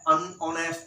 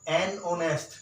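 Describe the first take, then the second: First: The word 'an' has a short, reduced vowel. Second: The word 'an' has a full, open vowel. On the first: The speaker calls it right. "क्या है, अन honest man" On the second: The speaker calls it wrong. "Not एन honest"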